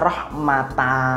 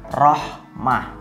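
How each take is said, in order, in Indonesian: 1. Kata ini berakhir dengan vokal 'a' yang terbuka. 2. Kata ini berakhir dengan bunyi 'h' yang berdesah. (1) "tapi tidak dibaca rahmata" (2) "tapi dibaca rahmah"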